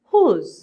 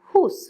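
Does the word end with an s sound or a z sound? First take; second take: z sound; s sound. First: The word ends with a buzzing z sound. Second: The word ends with a hissing s sound. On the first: The speaker calls it right. "আমাদের symbol বলছে sound is জ" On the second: The speaker calls it wrong. "আমি এভাবে উচ্চারণটা করে ফেলি যে হুস, নো।"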